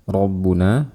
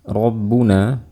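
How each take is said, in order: Both takes have the same delivery.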